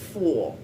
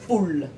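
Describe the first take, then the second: First: The final L is dark and soft. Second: The final L is clear and fully pronounced. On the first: The speaker calls it right. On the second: The speaker calls it wrong.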